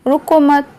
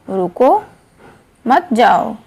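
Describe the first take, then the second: First: "रुको मत" as one unbroken phrase; pause after मत. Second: "रुको" alone on a rise, long break, then "मत जाओ"; pause after रुको. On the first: Teacher showing how punctuation changes meaning, pause after मत. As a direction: run "रुको" straight into "मत", stopping after "मत". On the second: Teacher showing punctuation changes meaning, pause after रुको. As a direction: stop clearly after "रुको", keep "मत जाओ" together. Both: Shown as a demonstration. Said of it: "अलग-अलग स्थान पर विराम चिन्हों के प्रयोग".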